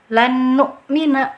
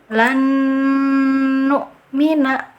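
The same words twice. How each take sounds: First: The double n is merged with no nasal hum. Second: The double n is held with a long nasal hum. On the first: The speaker calls it wrong. "Yang keliru... dengungannya tidak ada" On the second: The speaker calls it right. "cara baca yang betul"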